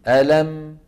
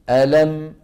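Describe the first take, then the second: No difference in how they are said.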